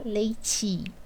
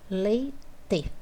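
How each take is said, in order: First: The final vowel is reduced, as in casual speech. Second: The final vowel is said as a clear E. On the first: This is how the word sounds in the speaker's regional accent. "Eu posso falar leite" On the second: This is how the word is spelled in standard writing. "eu tenho que escrever leite"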